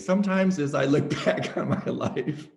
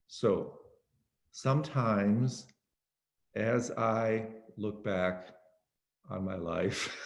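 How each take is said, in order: First: The phrase is spoken at a moderate, even pace. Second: The phrase is spoken extremely slowly and drawn out.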